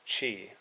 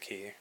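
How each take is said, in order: First: The word starts with a ch sound. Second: The word starts with a k sound. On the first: "I'm sorry if I'm pronouncing it phonetically" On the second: "I know some people pronounce it Ki"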